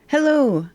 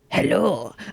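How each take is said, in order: First: It is said in the speaker's ordinary voice. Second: It is said in a put-on character voice.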